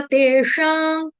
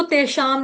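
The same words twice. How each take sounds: First: "तेषां" drawn out, ending in nasal ng; nasalised anusvara. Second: "तेषाम" short, ending on m; closed m ending. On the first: Teacher showing the right form, slow nasal "तेषां". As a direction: hold the final ng of "तेषां". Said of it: "अनुनासिक ङ की तरह". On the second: Teacher showing the mistake, "तेषाम" with m. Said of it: "तेषाम नहीं बोलेंगे". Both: Shown as a demonstration.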